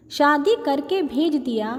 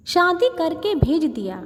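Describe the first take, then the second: No difference in how they are said.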